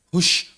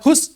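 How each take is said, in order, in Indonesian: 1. Kata ini berakhir dengan bunyi sh. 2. Kata ini berakhir dengan bunyi s. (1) "Kayak ngusir ayam" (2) "Enggak hus, hus enggak kan?"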